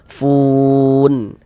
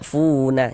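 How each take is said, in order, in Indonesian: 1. Kata ini berakhir jelas pada bunyi n. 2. Kata ini berakhir dengan vokal tambahan setelah n. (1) "kita baca fun, seperti itu" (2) "Jangan dibaca funa, jangan, salah"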